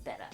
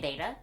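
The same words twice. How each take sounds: First: The first syllable sounds like 'bet'. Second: The first syllable sounds like 'bay'. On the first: This is the proper pronunciation. "the actual proper pronunciation is beta because there are two T's" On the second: This is the speaker's habitual pronunciation. "I say beta"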